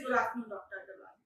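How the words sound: It is said in an upset, impatient tone.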